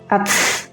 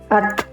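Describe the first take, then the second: First: The final t has a strong hissing release. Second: The final t has a slight airy hiss. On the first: The speaker calls it wrong. "Tapi jangan terlalu banyak seperti ats, ats. Jadi itu keliru" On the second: The speaker calls it right. "Jadi sedikit ada es atau sedikit berdesis, sedikit angin dikeluarkan"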